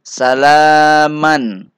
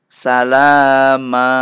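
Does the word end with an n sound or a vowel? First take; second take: n sound; vowel. First: The word ends with an n sound. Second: The word ends on a lengthened a vowel. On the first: The reading continues without stopping. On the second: The reader stops on this word.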